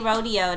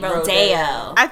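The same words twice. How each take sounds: First: It is pronounced the New York way. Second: It is pronounced the LA way. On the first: "They don't say Rodeo" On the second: "They say Rodeo"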